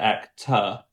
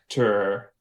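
First: Actor with no R, tongue resting down; British actor. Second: Actor with a strong American R, tongue back. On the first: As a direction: say actor the English way, dropping the R. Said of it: "as opposed to actor, where it's down". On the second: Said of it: "for example". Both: Shown as a demonstration.

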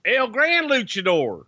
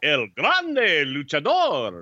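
First: High, slow announcer call, R's not rolled; ring announcer call. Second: Very slow booming announcer call, rolling the R's; ring announcer with rolled R's. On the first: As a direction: stretch the name out like a ring announcer. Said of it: "Say it like you did WrestleMania". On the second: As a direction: roll every R and draw the name out for the crowd. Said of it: "you were, like, rolling R's and shit". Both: Acted.

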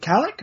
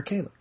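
First: Kalek with a short A, as in "cat"; short-A pronunciation. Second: Kalek with a long A, as in "day"; long-A pronunciation. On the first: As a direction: say Kalek as KAL-ick. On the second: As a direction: say Kalek as KAY-lick. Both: Shown as a demonstration. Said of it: "is it Kalek or Kalek?".

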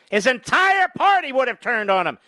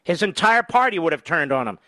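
First: Higher, punched ENTIRE; raised, insistent stress on "entire party"; emphatic repeat. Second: Said in the usual way. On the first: Real, not acted. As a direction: hammer home "entire party" on a raised pitch.

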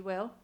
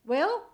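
First: Said in the usual way. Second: High, loud calling out a name. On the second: Acted. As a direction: call the name loudly. Mother calling again, louder.

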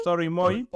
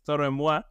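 First: Toro y Moi dicho «toro i mói»; pronunciación habitual. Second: Toro y Moi con Moi francés, «muá»; pronunciación correcta. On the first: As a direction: Moi leído a la española, «mói». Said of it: "normalmente le decimos". (di [name] con «mói» final) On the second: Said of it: "bien difícil de, de pronunciar". (Moi pronunciado «muá», a la francesa) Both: Shown as a demonstration.

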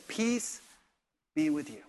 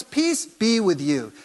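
First: Soft, gentle blessing; Jesus greeting Thomas softly, no rebuke; gentle peace. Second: Calm greeting. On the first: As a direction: say it softly to a doubter. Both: Retold or imitated. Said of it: "He says".

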